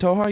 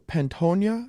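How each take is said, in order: First: Pantoja said pan-TOH-ha, taking the co-host's correction; corrected pronunciation. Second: Pantoja said with a hard N-Y sound, pan-TOHN-ya, slowly and tentatively; host guessing at a fighter's name, hesitant Pantoja as pan-TOHN-ya; unsure pronunciation. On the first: Host repeating the co-host's fix, Pantoja said pan-TOH-ha. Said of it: "Pantoja, I think". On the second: Host unsure of a fighter's name, tentative pan-TOHN-ya. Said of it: "Is that how you pronounce his name?". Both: Real, not acted.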